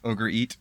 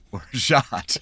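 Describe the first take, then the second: First: The word sounds like English 'ogre eat'. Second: The word has a French-like sound. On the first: This is how unsophisticated people say it. The speaker calls it wrong. "if you're unsophisticated" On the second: This is how sophisticated people say it. The speaker calls it right. "us sophisticated people call it orgeat"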